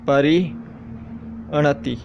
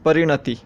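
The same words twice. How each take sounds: First: परिणति said very slowly, each syllable pulled apart; परिणति drawn out slowly for dictation. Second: Said in the usual way. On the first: Shown as a demonstration. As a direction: stretch out परिणति so every sound is clear. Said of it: "परिणति शब्द". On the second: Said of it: "अब आपको दिया जाता है परिणति शब्द".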